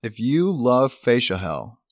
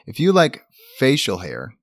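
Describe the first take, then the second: First: Said in the usual way. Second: "hair" said clearly, not "hell"; corrected pronunciation. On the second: Real, not acted. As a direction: say "facial hair" carefully. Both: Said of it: "well, we'll cut that out".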